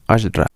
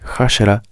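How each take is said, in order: First: The word begins directly with the vowel. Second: The word begins with an audible H sound. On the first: The speaker calls it right. "sino Ashra" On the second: The speaker calls it wrong. "no se lee Hashra"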